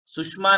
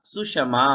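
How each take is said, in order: First: सुषमा clipped as sush-ma with half ष; सुषमा rushed in two syllables; wrong way. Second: सुषमा as su-sha-ma with full ष; right way. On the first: Teacher warning students off the clipped सुषमा. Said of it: "सुषमा नहीं बोलना". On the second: Teacher giving the full सुषमा after the wrong one. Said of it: "तो श पूरा होना चाहिए". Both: Shown as a demonstration.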